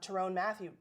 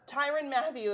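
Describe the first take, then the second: First: The first name ends like 'tyrone'. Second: The first name rhymes with 'Byron'. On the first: The speaker calls it wrong. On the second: The speaker calls it right.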